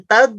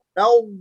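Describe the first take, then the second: First: "tad" with a thin a and hard d; thin wrong reading. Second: "tau" with a dark, backed vowel; thick correct reading. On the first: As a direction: say "tad" light, vowel left front. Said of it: "di sini bukan tad". ("tad" dibaca tipis, contoh keliru) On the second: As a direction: say "tau" thick, tongue back raised. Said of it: "cara yang tepat". ("tau" dibaca tebal, cara yang tepat) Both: Shown as a demonstration.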